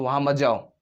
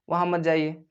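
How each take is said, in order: First: It is said as a strong, angry command. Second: It is said as a calm, normal request.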